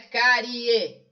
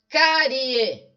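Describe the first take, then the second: First: The word is said with three syllables. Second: The word is said with two syllables. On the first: The speaker calls it wrong. "Não é" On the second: The speaker calls it right. "Ela tem duas sílabas"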